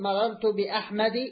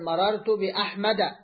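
First: The name ends with an 'i' vowel. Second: The name ends with an 'a' vowel. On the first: The speaker calls it wrong. "فبدل ما تقول مررت بأحمد، هذا خطأ" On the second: The speaker calls it right. "تقول مررت بأحمد"

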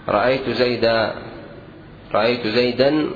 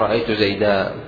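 First: The word ends with an n sound. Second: The word ends with a long a vowel. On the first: The speaker calls it wrong. "تنوين خطأ، وقف عليه بالتنوين خطأ" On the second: The speaker calls it right. "وإنما الصواب إذا وقفت أن تقول رأيت زيدا"

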